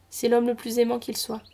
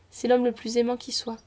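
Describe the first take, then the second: First: Reads qu'il soit, first slip; slipping on qu'il soit before correcting; misread qu'il soit. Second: Rereads with qui soit; corrected qui soit. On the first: Narrator misreads qu'il soit before self-correcting. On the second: Narrator corrects herself to qui soit. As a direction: fixes it to qui soit, plainly. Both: Shown as a demonstration.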